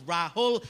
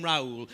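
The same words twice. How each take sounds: First: Rahul in two clear syllables with an h; Indian pronunciation. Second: Raoul run together without the h; slower Raoul, no h in the middle; Geordie mispronunciation. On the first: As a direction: say Rahul the traditional Indian way, ra-hul. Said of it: "It is Rahul, traditional Indian name". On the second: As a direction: say Raoul as the Geordies did, ra-ool. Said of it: "names that were more applicable to their dialect". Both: Shown as a demonstration.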